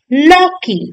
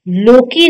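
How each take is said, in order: First: लौकी with an open au; correct au vowel. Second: लोकी with a closed o; wrong o vowel. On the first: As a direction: say लौकी as "laukee". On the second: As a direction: say लोकी as "lokee". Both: Shown as a demonstration. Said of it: "लोकी नहीं".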